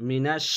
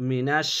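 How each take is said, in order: Both takes have the same delivery.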